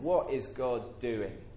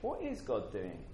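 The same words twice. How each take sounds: First: It is said in a grumbling, complaining tone. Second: It is said in a humble, curious tone.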